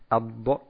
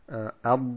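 First: The final consonant is released with an echoing bounce. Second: The final consonant is held and stops without release. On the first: The speaker calls it wrong. "wir sagen nicht Abba" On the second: The speaker calls it right. "sondern wir sagen Ab und bleiben an sich komplett darauf stehen"

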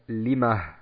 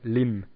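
First: The word ends with a vowel and soft h. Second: The word ends abruptly on the m sound. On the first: The speaker calls it right. "da wird ein H angehängt" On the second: The speaker calls it wrong. "wenn ich stehen bleiben würde, würde ich sagen Lim"

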